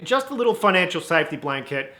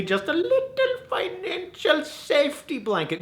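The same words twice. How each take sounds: First: Said in the usual way. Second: Tiny squeaky voice. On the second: Acted. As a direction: shrink it to a teeny squeak. Squeezes phrase, then repeats it normally.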